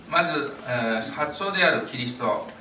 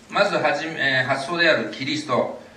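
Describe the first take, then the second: No difference in how they are said.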